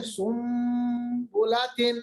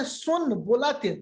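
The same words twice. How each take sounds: First: سن بلاتن sounded sum bolatin; n turned to m. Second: سن بلاتن read with a plain n; written form. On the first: Teacher models the iqlab reading, سن بلاتن. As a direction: say سن بلاتن with an m, sumbolatin. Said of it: "ہم پڑھتے ہیں". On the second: Teacher shows the written spelling, سن بلاتن. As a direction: say سن بلاتن as it is spelt, with n. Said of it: "لکھا ہے". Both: Shown as a demonstration.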